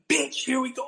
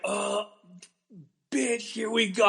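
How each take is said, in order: First: It is said forcefully and aggressively. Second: It is said timidly and hesitantly.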